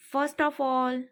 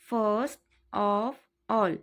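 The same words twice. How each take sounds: First: Said in the usual way. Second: Very slow, careful repeat; drawn-out teaching repeat. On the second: Shown as a demonstration. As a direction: draw out every word for the class. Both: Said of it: "teacher repeats phrase twice".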